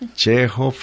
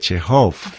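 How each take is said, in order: First: The stress is on the first syllable. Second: The stress is on the last syllable. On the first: This is the Russian pronunciation. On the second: This is the French pronunciation.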